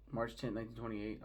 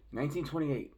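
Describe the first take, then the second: First: Said in the usual way. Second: "Nineteen twenty-eight" higher and louder; pointed emphasis. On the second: Real, not acted. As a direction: hammer home "Nineteen twenty-eight" as a telling date. Repeats the year pointedly.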